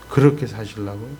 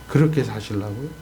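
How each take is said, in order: Both takes have the same delivery.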